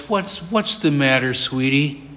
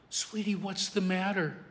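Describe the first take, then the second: First: Lower, softened concern; gentle parent. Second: Very soft, soothing question; tender hush. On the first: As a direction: comfort a child at the bedside. Father comforting his crying daughter. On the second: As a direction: ask it almost under your breath to calm a child. Father soothing his crying daughter. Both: Retold or imitated.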